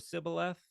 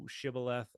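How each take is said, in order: First: It begins with a plain s sound. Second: It begins with an sh sound. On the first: "the S sound" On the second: "the S H sound"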